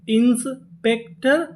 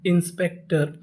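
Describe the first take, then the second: First: Slow, higher inspector with a rising end; slow sounding out. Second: Said in the usual way. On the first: Shown as a demonstration. Teacher slowly building the word for students. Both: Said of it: "तो पूरी meaning".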